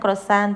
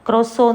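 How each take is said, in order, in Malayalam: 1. ഈ വാക്ക് കേൾക്കാവുന്ന t ശബ്ദത്തിലാണ് അവസാനിക്കുന്നത്. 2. ഈ വാക്ക് o സ്വരത്തിലാണ് അവസാനിക്കുന്നത്, t ഇല്ല. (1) "ക്രൊസാന്ത് എന്ന് പറയും" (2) "ലാസ്റ്റ് ടി പറയത്തില്ല"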